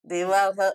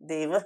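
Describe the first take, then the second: First: The final h is said fully after a vowel. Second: The final h is only a faint breath. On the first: The speaker calls it wrong. "देवाह नाही" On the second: The speaker calls it right. "ह किंचित अगदी थोडासा उच्चार येतो"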